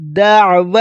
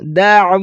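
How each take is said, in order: First: The 'ain sound is pronounced clearly. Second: The 'ain sound is pronounced clearly.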